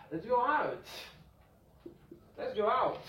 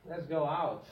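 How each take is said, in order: First: Let's go out pitched higher; bright suggestion; lifted example voice; example line. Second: Said in the usual way. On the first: Shown as a demonstration. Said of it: "If I say". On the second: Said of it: "very British".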